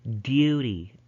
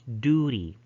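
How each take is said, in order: First: A y glide comes before the oo. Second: The vowel after d is a plain oo. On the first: "But in British English, they would pronounce this as" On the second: "So in American English, they would pronounce this as"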